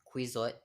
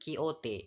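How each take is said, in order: First: The name is said the English way. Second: The name is said the Spanish way. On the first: The speaker calls it wrong. "It's not Quixote" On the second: The speaker calls it right. "but Quixote. It is based on Spanish pronunciation"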